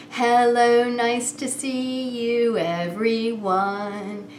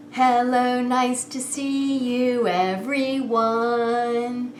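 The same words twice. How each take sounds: The two takes are said the same way.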